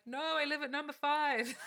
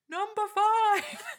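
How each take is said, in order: First: Higher, insistent imitation of colleague; insistent correction. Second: High, drawn-out mock yell; shouting. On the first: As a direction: correct the operator firmly, pitch raised. Colleague corrects the wrong address. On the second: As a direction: yell it slowly into a bad line. Colleague yells correction to operator.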